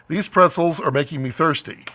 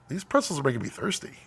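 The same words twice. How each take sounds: First: It sounds flatly read from a script. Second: It sounds naturally spoken with expression.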